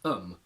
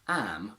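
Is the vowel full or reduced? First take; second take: reduced; full. First: The word is said with a reduced vowel. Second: The word is said with a full vowel. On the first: "used in its weak form" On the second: "The strong form"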